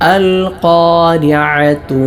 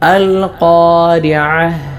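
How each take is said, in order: First: The word ends with a t sound. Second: The word ends with an h sound. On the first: The word is joined to the next word. "ചേർത്തോതുമ്പോൾ താ ആയിട്ടാണ് ഉച്ചരിക്കേണ്ടത്" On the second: The reciter stops after this word. "ഇവിടെ വഖഫ് ചെയ്യുമ്പോൾ ഹാ ആയിട്ടാണ് ഉച്ചരിക്കേണ്ടത്"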